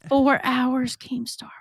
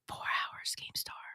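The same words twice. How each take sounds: First: It is said loudly. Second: It is said softly.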